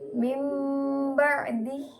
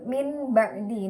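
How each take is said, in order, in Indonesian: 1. Kata pertama berakhir dengan bunyi sengau m. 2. Kata pertama berakhir dengan bunyi n. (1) "diganti kepada huruf mim" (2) "nun sukun bertemu dengan ba"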